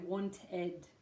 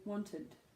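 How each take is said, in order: First: The last syllable has a full, clear vowel. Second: The last syllable has a weak schwa vowel. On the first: The speaker calls it wrong. "You don't say wanted" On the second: The speaker calls it right. "you would say wanted, want, id"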